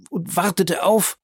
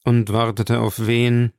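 First: High-pitched, breaking off unfinished; horrified faltering. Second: Said in the usual way. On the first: A narrator's reading. Bertuccio cannot name whom she awaited, horrified. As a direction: falter as horror takes over.

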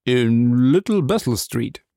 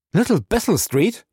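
First: Slow, drawn-out character voice; reluctant answer. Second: High, rising echo of disbelief; startled question. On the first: Suspect naming his street to the captain, reluctantly. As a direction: give the street name slowly. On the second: Captain jumping up at the street name, startled. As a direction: repeat it sharply upward as a question. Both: Acted.

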